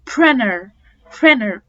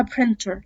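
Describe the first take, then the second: First: "printer" said "prinner"; silent t. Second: "printer" with a clear t; t pronounced. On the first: Teacher showing the t-less "printer". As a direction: drop the t in "printer". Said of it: "في ناس بتقولها printer". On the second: Teacher showing the version with t. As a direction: keep the t in "printer". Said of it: "في ناس بتقولها". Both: Shown as a demonstration.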